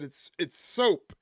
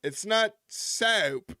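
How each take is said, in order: First: Soap said slowly with a clean long o; careful plain soap as Kaufman teaching; Andy Kaufman's correct soap. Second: Soap drawn out slow like "sap" in a mock Southern accent; Andy Kaufman's mock Southern soap. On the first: Retold or imitated. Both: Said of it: "Kaufman's way of trying to sound Southern".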